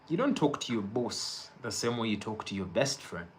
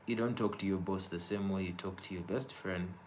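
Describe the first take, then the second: First: It is said with lively, varied expression. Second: It is said in a flat, monotone way.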